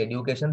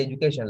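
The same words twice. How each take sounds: First: "education" as ed-yu-cation; Sri Lankan pronunciation. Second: "education" as ej-u-cation; foreign pronunciation. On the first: Teacher showing class the local way, Sri Lankan pronunciation. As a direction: say "education" with a dyu sound. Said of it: "We say education". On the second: Teacher showing how foreigners say it, foreign pronunciation. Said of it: "they say education". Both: Shown as a demonstration.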